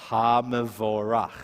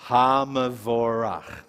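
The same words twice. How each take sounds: First: Hamavorach slow and even, ha-ma-vo-rach; careful model reading. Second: Hamavorach spelled out slowly, ha-ma-vo-rach; slow model reading. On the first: Teacher repeats Hamavorach slowly for the class. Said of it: "Let's try it one more time". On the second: Teacher reads Hamavorach slowly for students to copy. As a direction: read Hamavorach syllable by syllable, slowly. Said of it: "Can you read that?". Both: Shown as a demonstration.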